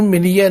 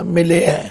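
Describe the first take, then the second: First: ਮਿਲਿਆ misread with a y-glide, "mi-li-ya"; ਮਿਲਿਆ as the mistaken "mi-li-ya" reading; wrong reading. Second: ਮਿਲਿਆ read "mi-le-ai", without the y-glide; ਮਿਲਿਆ as scriptural "mileai"; correct reading. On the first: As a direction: say ਮਿਲਿਆ quickly as "miliya". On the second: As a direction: say ਮਿਲਿਆ with an open "ai" ending. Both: Shown as a demonstration. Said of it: "ਇਹਨੂੰ ਮਿਲਿਆ ਨਹੀਂ ਪੜ੍ਹਨਾ".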